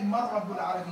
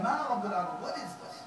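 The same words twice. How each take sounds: First: Said in the usual way. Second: Dismissive scoff. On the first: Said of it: "the language of the ayah doesn't say". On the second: Shown as a demonstration. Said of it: "He said".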